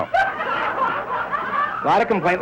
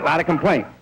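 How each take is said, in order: First: Very high, very slow falsetto; mock squeal. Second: Said in the usual way. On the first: Shown as a demonstration. Comic repeating of the complaint, high and slow. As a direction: stretch it out in a silly high squeak.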